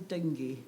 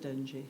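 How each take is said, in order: First: It sounds like the name of the fever. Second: It sounds different from the fever's name. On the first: The speaker calls it wrong. "the other one's a fever" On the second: The speaker calls it right. "I think it's the dengue"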